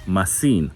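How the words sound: It is said with a Greek accent. "most likely will pronounce it like this"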